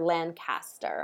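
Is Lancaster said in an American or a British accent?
British. It is said with a British pronunciation. "as the British say"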